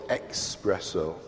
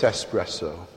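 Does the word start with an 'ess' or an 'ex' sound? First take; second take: ex; ess. First: The word starts with an 'ex' sound. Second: The word starts with an 'ess' sound. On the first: The speaker calls it wrong. "I used to mispronounce it" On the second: The speaker calls it right. "but of course it's espresso"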